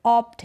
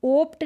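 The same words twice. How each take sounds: First: ऑप्ट said "awpt"; open short o. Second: ओप्ट said "ohpt"; ओप्ट with a rounded long o; wrong long o. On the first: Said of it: "ये ऑप्ट है". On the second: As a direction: say ओप्ट with a closed "oh". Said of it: "ओप्ट नहीं है". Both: Shown as a demonstration.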